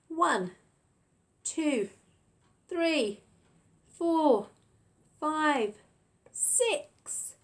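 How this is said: The numbers are shouted loudly.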